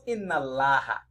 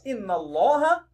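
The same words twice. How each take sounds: First: The L in Allah is thin and light. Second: The L in Allah is thick and heavy. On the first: The speaker calls it wrong. "not Inna Allah" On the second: The speaker calls it right. "So you read it as Inna Allah"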